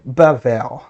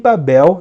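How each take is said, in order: First: The middle consonant is a v sound. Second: The middle consonant is a b sound. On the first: This is the Hebrew form of the name. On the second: This is the usual Portuguese form of the name.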